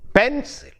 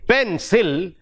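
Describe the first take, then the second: First: The stress is on the first syllable. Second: The stress is on the second syllable. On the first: The speaker calls it right. "the first syllable is stressed" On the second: The speaker calls it wrong. "We don't say pencil"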